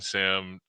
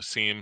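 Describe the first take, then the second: First: The word is said with a short i vowel. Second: The word is said with a long ee vowel.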